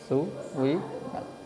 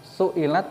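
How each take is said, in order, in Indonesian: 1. Bunyi w terdengar di tengah. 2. Bunyi hamzah terdengar di tengah. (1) "diganti wawu suilat menjadi suwilat" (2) "hamzah di kasroh jatuh setelah dhammah"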